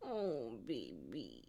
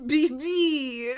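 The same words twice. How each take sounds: First: Very low, soft pet talk; tender cooing. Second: High, loud cooing to a cat; cutesy pet call. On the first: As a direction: soothe a sulking cat, low and hushed. Cooing at the sulking cat. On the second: Calling the cat baby, playfully. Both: Real, not acted.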